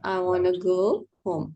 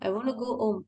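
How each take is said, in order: First: 'Want to' is reduced to 'wanna'. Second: 'Want to' is said in full, two words. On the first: This is how native speakers say it. "Native speaker பேசுவாங்களா? I wanna" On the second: This is the textbook form learners know. "அது எங்களுக்கு தெரிஞ்ச English"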